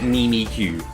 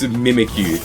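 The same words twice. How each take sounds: First: The name begins with a doubled 'mimi' sound. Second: The name begins like the word mimic. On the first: The speaker calls it wrong. "not Mimikyu" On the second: The speaker calls it right. "it's Mimikyu"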